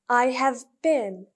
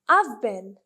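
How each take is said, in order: First: All three words are said fully and separately. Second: The words are said quickly with have contracted. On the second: "when they are speaking fast, they use contractions"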